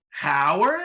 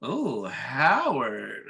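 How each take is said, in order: First: Higher, rising, questioning "Howard"; puzzled wife. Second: Very slow, swooping "Oh, Howard"; swooning wife. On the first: Retelling wife seeing husband unmasked, questioning surprise on "Howard". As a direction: imitate a wife's disbelief, "Howard" lifting at the end. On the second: Retelling wife admiring her husband, drawn-out swoon on "Howard". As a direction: stretch "Oh, Howard" into a mock swoon. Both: Retold or imitated.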